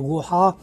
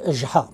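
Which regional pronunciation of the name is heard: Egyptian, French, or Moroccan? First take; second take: Egyptian; Moroccan. First: The name has an Egyptian-style pronunciation. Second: The name has a contracted Moroccan-style pronunciation. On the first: "Si vous allez en Égypte, ils vont le prononcer Gouha" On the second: "au Maroc où il est prononcé en tant que Jha. Il y a une sorte de contraction"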